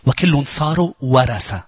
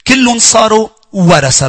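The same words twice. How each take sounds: First: Said in the usual way. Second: كلهم hit high and loud, then a slow falling proclamation; proclaimed verse, stress on كلهم. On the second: Shown as a demonstration. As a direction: declare كلهم صاروا ورثة slowly, punching كلهم.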